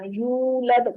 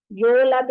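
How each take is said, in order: First: यूलद as "yoolad", with rounded long oo; properly rounded. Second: यूलद as "yolad", with o for oo; wrong vowel. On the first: Teacher correcting the wrong vowel, properly rounded oo. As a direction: round the lips fully on the "yoo" of यूलद. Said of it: "गोल करेंगे बाकायदा". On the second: Teacher showing what not to say, wrong o vowel. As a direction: say यूलद with a slack o, as a mistake. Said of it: "यूलद नहीं बोलना". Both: Shown as a demonstration.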